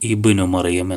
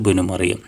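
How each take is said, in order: First: The opening vowel is clearly pronounced at the start. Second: The opening vowel is dropped, joined to the previous word. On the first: The phrase begins the utterance. "അപ്പോൾ ഹംസ വന്നു" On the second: The phrase continues from a preceding word. "അപ്പോൾ ഈ ഹംസ പോകും"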